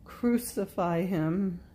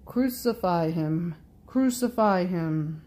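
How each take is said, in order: First: Restrained, drawn-out cry; reluctant cry. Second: Raised, insistent crowd cry. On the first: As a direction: cry out slowly, without force. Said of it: "I too feel forced to cry out". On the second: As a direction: call it out as a whole crowd. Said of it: "everyone in one voice cries out". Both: A narrator's reading.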